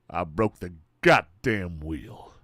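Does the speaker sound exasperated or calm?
exasperated. It sounds exasperated and fed up.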